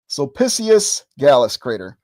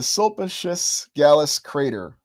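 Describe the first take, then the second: First: The name is said with a Latin-style pronunciation. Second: The name is said with an English-style pronunciation. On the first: The speaker calls it right. "There we go. Had to switch into Latin mode there" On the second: The speaker calls it wrong. "I'm not pronouncing it properly"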